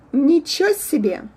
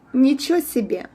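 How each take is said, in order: The two takes are said the same way.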